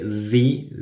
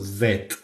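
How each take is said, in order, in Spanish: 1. La letra se dice de forma no británica. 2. La letra se dice de forma británica. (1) "en el Reino Unido y en Irlanda eh, no se dice Z" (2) "sino Z"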